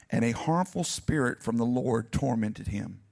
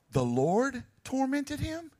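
First: Said in the usual way. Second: "The Lord tormented him?" slowly, higher, rising in disbelief; incredulous stress. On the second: Shown as a demonstration. Preacher questions the verse for the congregation, slow incredulous rise. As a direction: question "tormented" as if it can't be true. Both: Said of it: "A harmful spirit from who?".

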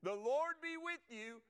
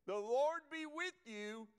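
First: Higher and louder, ringing out; the greeting, proclaimed again. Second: Higher, louder and slow, like calling across a field; a preacher's ringing greeting; slow proclaimed greeting. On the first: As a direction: call The Lord be with you across the room. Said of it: "Okay, y'all ready?". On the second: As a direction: proclaim the Lord be with you slowly. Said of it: "Now watch this". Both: Shown as a demonstration.

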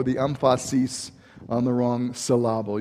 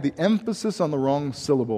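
First: "emphasis" as em-FAH-sis, "syllable" as sil-LAH-ble; jokingly misplace the stress: em-FAH-sis for "emphasis", sil-LAH-ble for "syllable"; stress on wrong syllables. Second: Said in the usual way. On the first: Shown as a demonstration. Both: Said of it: "I had the emphasis on the wrong syllable".

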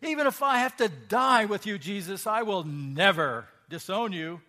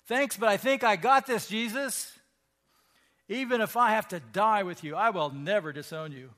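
First: Loud, high, insistent vow; emphatic insistence. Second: Loud, high, self-assured brush-off; cocky boast. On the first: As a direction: swear it, refusing to be doubted. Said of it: "Peter insisted emphatically". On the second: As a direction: wave off the warning, cocksure. Peter voiced boasting to Jesus. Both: Acted.

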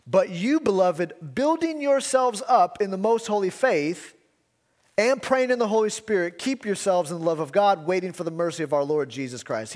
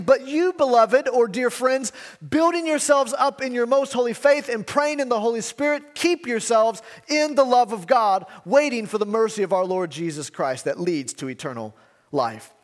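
First: Said in the usual way. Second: Higher and louder, proclaiming the verse; proclaimed scripture. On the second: Acted. Preacher proclaiming Jude's command to the church, fervent.

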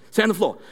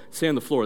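First: Higher, sharper acted order; quick karate drill command; sensei command. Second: Said in the usual way. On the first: Shown as a demonstration. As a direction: call it out briskly before a strike. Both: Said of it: "It was like this".

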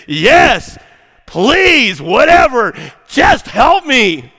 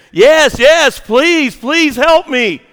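First: High, loud, exasperated begging; frustrated yell. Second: High, loud, desperate begging; screamed plea. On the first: Hanging man tired of questions yells upward, frustrated yell. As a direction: holler it, fed up with all the talking. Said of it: "the man's frustrated and he's tired of all the talking". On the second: Hanging man begs voice from sky, screamed plea. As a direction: cry out each plea in swooping high bursts. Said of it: "cries back out and he screams". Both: Acted.

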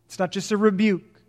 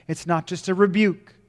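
The two takes are said the same way.

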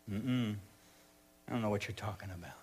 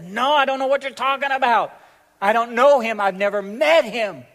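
First: Low, very soft brush-off; quiet denial. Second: Loud, high, emphatic outburst; heated denial. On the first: Peter denying Jesus to a little girl, quiet and evasive. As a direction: deny it under the breath. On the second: Peter denying to accusers that he knows Jesus, loud and heated. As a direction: burst out in vehement protest. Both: Acted.

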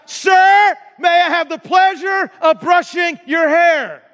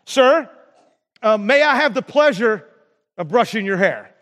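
First: High, loud shout to be heard; acted-out shout to someone hard of hearing. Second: Said in the usual way. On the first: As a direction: shout the polite request across a room. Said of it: "And so she shouted out". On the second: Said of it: "she asked the guy".

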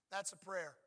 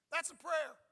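First: Said in the usual way. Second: Laughing. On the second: Real, not acted. Laughing after a mock sick prayer.

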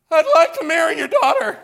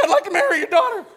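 First: High, loud squeaky crack, laughing through it; a nervous young man's voice breaks mid-sentence. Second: Very high, fast, cracking squeak, with a laugh; a would-be man's voice breaking upward; squeaky cracked voice. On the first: Telling the congregation how his voice cracked, high and laughing. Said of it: "My voice completely cracks". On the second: Redoing his proposal to his father-in-law, high cracked squeak. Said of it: "I'm trying to sound like a man". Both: Retold or imitated.

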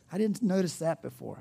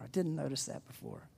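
First: Said in the usual way. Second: Softer, musing repeat. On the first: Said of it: "first take". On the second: Pretend. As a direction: murmur it to yourself. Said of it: "repeat of the quote".

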